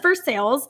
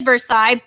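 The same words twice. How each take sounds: First: The name has the local Kentucky pronunciation. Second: The name has its standard pronunciation. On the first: The speaker calls it wrong. "they pronounce it as Versailles" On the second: The speaker calls it right. "It is Versailles"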